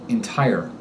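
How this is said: The final R is pronounced with a tense tongue. "In standard American English, R endings are pronounced with a tense tongue"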